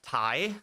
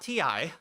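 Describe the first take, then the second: First: It is said as one syllable, like 'tie'. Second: It is spelled out as two separate letters. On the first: The speaker calls it right. "It's actually pronounced Thai" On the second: The speaker calls it wrong. "not T I"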